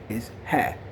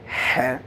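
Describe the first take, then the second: First: The h is soft and plain. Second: The h is strong and emphatic. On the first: The speaker calls it right. "That's that other ha" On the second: The speaker calls it wrong. "not like the one we put so much emphasis on"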